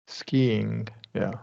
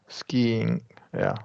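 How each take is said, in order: The two takes are said the same way.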